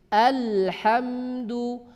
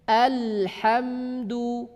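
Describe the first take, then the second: Both takes have the same delivery.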